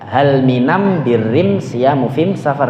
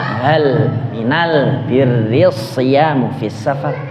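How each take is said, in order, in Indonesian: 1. Artikel diucapkan am sebelum setiap kata benda. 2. Artikel diucapkan al sebelum setiap kata benda. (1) "bacanya al itu am ... berarti mim kabeh" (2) "Quraisy bacanya"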